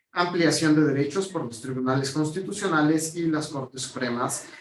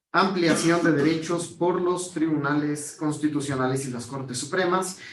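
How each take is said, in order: The two takes are said the same way.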